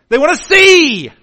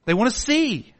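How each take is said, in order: First: Shouted high and loud, "see" falling. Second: Said in the usual way. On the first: Shown as a demonstration. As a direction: call out "see" loudly. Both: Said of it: "repeated softer".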